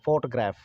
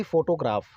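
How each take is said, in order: First: "फोटोग्राफ" as FAWT-graef, lower, middle vowel dropped; correct photograph. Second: "फोटोग्राफ" as fo-to-graaf, with a full to; mispronounced photograph. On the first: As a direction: squeeze "फोटोग्राफ" into two syllables, FAWT-graef. ("फोटोग्राफ" का सही उच्चारण, फॉट-ग्रैफ) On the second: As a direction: say all three syllables of "फोटोग्राफ", long aa. ("फोटोग्राफ" का गलत उच्चारण, फो-टो-ग्राफ) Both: Shown as a demonstration. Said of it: "ना कि फोटोग्राफ".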